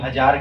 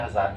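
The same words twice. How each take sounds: First: The first consonant is a j sound. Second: The first consonant is a z sound. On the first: The speaker calls it wrong. "अगर हम हजार कहेंगे तो हमारा प्रभाव बहुत खराब पड़ेगा" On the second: The speaker calls it right. "हमें हजार कहना चाहिए"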